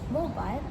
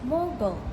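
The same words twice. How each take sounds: First: It is said in a British accent. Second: It is said in an American accent. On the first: "British pronounce as" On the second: "American pronounce as"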